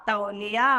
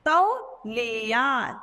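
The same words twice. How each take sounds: First: Said in the usual way. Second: तौलिया drawn out slowly, syllable by syllable; slow model word. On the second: Shown as a demonstration. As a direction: stretch तौलिया for the pupils. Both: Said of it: "तौ के साथ औ की मात्रा".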